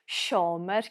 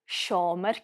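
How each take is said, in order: The two takes are said the same way.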